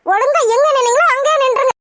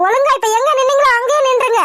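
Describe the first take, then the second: First: Sterner order. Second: Stern order. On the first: Wife repeats the order, angrier. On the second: Wife orders husband to keep away. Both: Acted.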